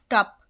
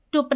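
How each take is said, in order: First: टप with an open 'uh' vowel, like 'tup' in 'cup'; correct short-u sound. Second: टुप with an 'oo' vowel, as in 'put'; mistaken u reading. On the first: Teacher showing learners how u is read, correct 'uh' in टप. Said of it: "आ पढ़ेंगे इसको". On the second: Teacher warning learners how not to read it, mistaken 'oo' in टुप. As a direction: misread टुप, giving the u an 'oo' sound. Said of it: "टुप नहीं पढ़ेंगे". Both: Shown as a demonstration.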